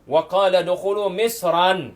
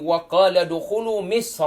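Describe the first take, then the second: First: The last word ends with an added 'an' sound. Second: The last word ends without an added 'an' sound. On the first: The intended meaning is not conveyed. The speaker calls it wrong. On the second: It refers to the city of Egypt. The speaker calls it right.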